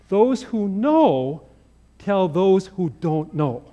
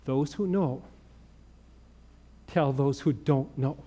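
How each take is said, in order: First: Slow punchline. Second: Quiet sincere lesson. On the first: Retold or imitated. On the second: Acted. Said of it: "That's what it means to be".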